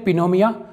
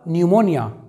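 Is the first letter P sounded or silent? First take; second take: sounded; silent. First: The word starts with a sounded P. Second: The word starts with an N sound. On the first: The speaker calls it wrong. "कई लोग इसे अजीब तरह से पढ़ते हैं" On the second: The speaker calls it right. "इसका जो एक्चुअल साउंड होगा"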